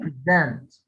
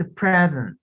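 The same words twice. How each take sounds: First: "present" stressed as pre-ZENT, the verb; second-syllable stress. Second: "present" stressed as PREZ-ent, the noun; first-syllable stress. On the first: Teacher contrasting with the noun, "present" hit at the end. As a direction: lean on the last syllable of "present". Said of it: "هنا قلت present". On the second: Teacher explaining stress to a student, "present" hit up front. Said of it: "عملت ستريس على first syllable". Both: Shown as a demonstration.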